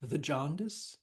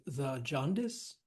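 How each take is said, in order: First: "the jaundice" with "the" squeezed into th'; elided "the". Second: "the jaundice" with "the" as its own full syllable. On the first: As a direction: clip the vowel of "the" so it runs into "jaundice". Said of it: "T H apostrophe". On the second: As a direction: give "the" its whole vowel before "jaundice". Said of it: "instead of the jaundice". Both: Shown as a demonstration.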